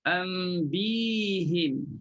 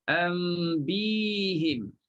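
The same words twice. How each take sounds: First: The h is followed by an i vowel. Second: The same.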